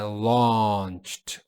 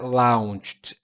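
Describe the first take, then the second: First: The vowel sounds like the one in law. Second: The vowel does not sound like the one in law. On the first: The speaker calls it right. "é launched, law" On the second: The speaker calls it wrong. "não é launched"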